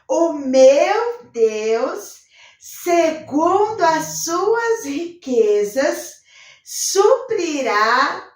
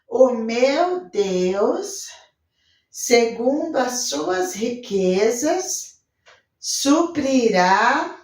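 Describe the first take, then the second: First: It is spoken loudly, with lively enthusiasm. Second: It is spoken flatly, without energy or conviction. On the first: The speaker believes it with joy and conviction. The speaker calls it right. "Vamos bem forte, bem animado" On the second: The speaker has no hope or conviction. The speaker calls it wrong. "Não vai falar assim, ó ... a tia não tem esperança nenhuma, não tem convicção nenhuma"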